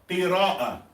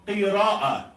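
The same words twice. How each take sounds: The two takes are said the same way.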